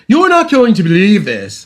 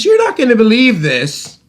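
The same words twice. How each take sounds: First: High, loud hammed-up British accent. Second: Said in the usual way. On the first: Retelling a repairman's midnight reply, mock British accent. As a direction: put on an exaggerated British voice. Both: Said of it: "in his British accent".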